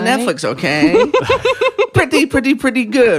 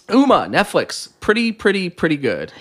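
First: It is said in a put-on impression voice. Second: It is said in the speaker's ordinary voice. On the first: "Can you say it in Quentin Tarantino's voice?" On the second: "I should have did it in the voice, but I didn't"

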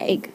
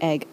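First: The word is said in the classmates' local accent. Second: The word is said in the speaker's Scottish accent. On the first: "obviously they say, like, egg" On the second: "I say egg like egg"

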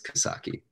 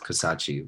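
First: The last syllable starts with a 'k' sound. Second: The last syllable starts with a 'ch' sound. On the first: The speaker calls it right. "But it is Kasaki" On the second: The speaker calls it wrong. "Everybody pronounces it wrong. Everybody says Kasachi"

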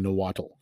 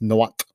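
First: The word is pronounced in an anglicized way. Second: The word is pronounced closer to the native way. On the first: The speaker calls it wrong. "I'm saying it better than" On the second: The speaker calls it right. "which I can't even say that properly, but I'm saying it better"

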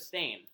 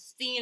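First: The vowel sounds like the one in 'sane'. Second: The vowel sounds like the one in 'seen'. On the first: "It's steen instead of stain" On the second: "It's steen instead of stain"

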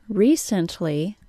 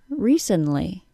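First: The T is pronounced as a full T. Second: The T is left out entirely. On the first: "which I just said with a regular T sound" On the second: "If I say it without the T sound"

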